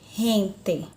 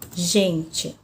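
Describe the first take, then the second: First: The G sounds like a dragged, rasping R. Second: The G sounds as in Portuguese. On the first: "na língua espanhola a pronúncia também é diferente. Eu vou ter gente" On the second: "Na língua portuguesa eu tenho a palavra gente"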